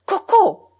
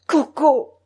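First: High, loud exclamation; piercingly high call, falling away; crying out. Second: Less sharp call, still raised; softened, almost tender. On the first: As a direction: cry the name out sharply. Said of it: "s'écria grand-mère". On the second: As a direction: call the pet name with some tenderness. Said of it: "d'une voix adoucie et presque tendre". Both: A narrator's reading.

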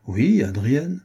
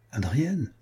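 First: Firm, higher-pitched Oui, then Adrienne; assertive confirmation. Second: Softly startled question on Adrienne; questioning disbelief. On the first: Rival confirming the name to the startled youth, emphatic. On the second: Jealous youth checking whom his rival means, quietly incredulous. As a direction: ask "Adrienne" back, softer and taken aback. Startled lover asks back the name. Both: A narrator's reading.

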